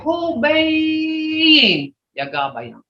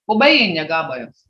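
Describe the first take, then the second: First: It is said with a changed, emphatic tone. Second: It is said in a plain, ordinary tone. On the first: The walk was very far, many miles. "But if you walk ten, twenty miles, you can say" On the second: The walk was about a mile. "But if you just, just far, a mile"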